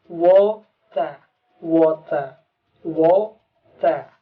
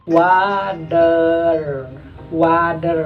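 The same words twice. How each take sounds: First: Water said British, wota, T kept and R dropped; British water with a crisp T; British pronunciation. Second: Water said American, wadder, T as D and R stretched; American water with a flapped T and a drawn-out R; American pronunciation. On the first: Teacher demonstrating British water. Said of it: "British akan dibaca T-nya tetap T". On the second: Teacher demonstrating American water, T as D. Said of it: "maka bacanya water". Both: Shown as a demonstration.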